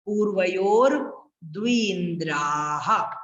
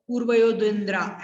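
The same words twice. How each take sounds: First: Slow पूर्वयोर, pause, stretched द्विन्द्राः; careful proper recitation. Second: Quick पूर्वयो द्विन्द्रा, endings dropped; hurried wrong recitation. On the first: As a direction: draw out द्विन्द्राः and sound its final ह. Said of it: "अच्छे से बोलना है". (पूर्वयोर द्विन्द्राः धीरे, अच्छे से खींचकर) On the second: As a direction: rush through पूर्वयो द्विन्द्रा with no long vowels. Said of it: "जल्दी जल्दी में नहीं बोलना". (पूर्वयो द्विन्द्रा जल्दी-जल्दी, विसर्ग छोड़कर) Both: Shown as a demonstration.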